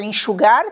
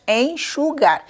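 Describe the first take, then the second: First: Said in the usual way. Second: Enxugar split as en-xu-gar; teacher counting out the syllables of enxugar: en-xu-gar. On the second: Shown as a demonstration. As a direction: break "enxugar" into three separate syllables, en, xu, gar. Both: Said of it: "tem três sílabas".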